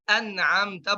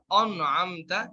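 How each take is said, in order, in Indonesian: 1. Huruf vokal pertama adalah a yang ringan dan tipis. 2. Huruf vokal pertama ditebalkan ke arah o. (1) "an'amta semua tipis" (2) "sering ditebalkan"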